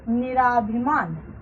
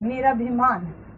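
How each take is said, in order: First: The vowel after 'nir' is long. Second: The vowel after 'nir' is short. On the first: The speaker calls it wrong. "ना कि निराभिमान" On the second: The speaker calls it right. "तो शब्द बनेगा निरभिमान"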